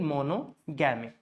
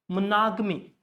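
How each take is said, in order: First: The word is broken up with every syllable stressed. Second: Only one syllable carries stress, the rest reduced. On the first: The speaker calls it wrong. "Because we are breaking it monogamy. But that's not the way, guys, we pronounce it" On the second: The speaker calls it right. "That's how it is pronounced. Only one syllable has to be stressed"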